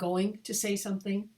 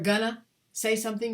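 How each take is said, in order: First: 'Going to' is said as two clear words. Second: 'Going to' is blurred into 'gonna'. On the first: The speaker calls it right. "clearly enunciate" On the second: The speaker calls it wrong. "Americans can get kind of sloppy"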